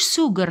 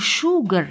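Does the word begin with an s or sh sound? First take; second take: s; sh. First: The word begins with an s sound. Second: The word begins with an sh sound. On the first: The speaker calls it wrong. "ما نقولوش سوغر" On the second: The speaker calls it right. "نقولوا شوغر"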